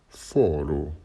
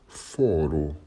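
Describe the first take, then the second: The two takes are said the same way.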